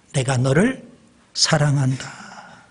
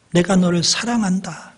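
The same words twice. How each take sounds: First: Preacher voicing Jesus slowly and tenderly. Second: Said in the usual way. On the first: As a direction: draw each word out gently. Jesus' words repeated twice.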